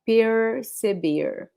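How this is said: The R sounds like an English R. "Some other regions will say it like the R from English"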